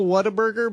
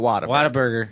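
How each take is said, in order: First: The name is pronounced plainly, as spelled. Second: The name is pronounced with a Texan accent. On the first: "It's w- spelled Whataburger" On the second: "but when you're in Texas, you call it Whataburger"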